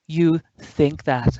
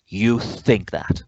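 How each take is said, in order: First: It sounds happy. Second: It sounds angry.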